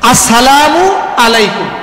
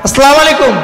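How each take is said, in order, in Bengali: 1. অভিবাদনটি যত্ন সহকারে, প্রতিটি ধ্বনি পূর্ণভাবে উচ্চারণ করা হয়। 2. অভিবাদনটি দ্রুত এবং ছোট ছোট ধ্বনি দিয়ে উচ্চারণ করা হয়। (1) "এভাবে শুদ্ধভাবে সালাম দিতে হবে।" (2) "বলি না আমরা এরকম?"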